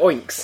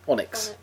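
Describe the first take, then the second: First: It is said as oinks, like pig noises. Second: It is said as on-icks, with a short vowel. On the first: "I prefer to pronounce it oinks" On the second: "How do you pronounce that word?"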